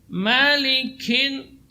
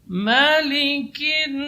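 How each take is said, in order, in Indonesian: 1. Bunyi k-nya berlebihan dan serak seperti kh. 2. Bunyi k-nya ringan dan tidak berlebihan. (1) "tidak boleh malikin sampai seperti itu, ini tidak boleh. Itu sudah yushbih kha" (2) "tidak boleh berlebihan"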